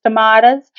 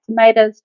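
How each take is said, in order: First: "tomatoes" said with a broad AH, to-MAH-toes, rising at the end; tomahto pronunciation. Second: "tomatoes" said with a long A, to-MAY-toes; tomayto pronunciation. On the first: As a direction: say "tomatoes" the other way, MAH in the middle. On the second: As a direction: say "tomatoes" the American way, MAY in the middle. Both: Shown as a demonstration. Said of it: "depending on where you're at".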